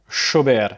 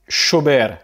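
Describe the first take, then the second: First: The double L sounds like 'sh'. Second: The double L sounds like 'sh'.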